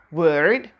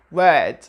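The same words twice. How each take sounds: First: "word" with a hard American R; exaggerated rhotic "word", R drawn out; pronounced R. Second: British "word" without the R; non-rhotic "word"; silent R. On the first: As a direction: sound the R strongly in "word". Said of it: "We don't say word". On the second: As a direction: say "word" with a long vowel and no R. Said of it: "we say word". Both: Shown as a demonstration.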